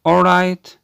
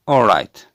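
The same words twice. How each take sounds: First: "All right" as a question, pitched high and loud. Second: "All right" as a firm answer, loud with falling pitch. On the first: Teacher showing all right as a question, "All right" with high questioning tune. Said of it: "ممكن تيجي كمان الحالة ال all right كسؤال". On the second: Teacher showing the answer to all right, "All right" with falling tune. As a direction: drop "All right" down into a definite reply. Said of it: "الجواب all right". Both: Shown as a demonstration.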